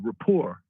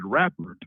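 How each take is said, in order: First: It ends in a 'pore' sound, no 'er'. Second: It ends in an 'er' sound like rapper. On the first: "the big word I learned was uh" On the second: "I remember using that word wrong"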